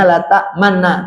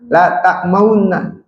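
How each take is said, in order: First: The doubled n is plain, with no rounding. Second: The doubled n has a rounded u colour. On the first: The speaker calls it wrong. "tulisannya la ta'manna" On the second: The speaker calls it right. "tapi dibacanya la ta'mauna"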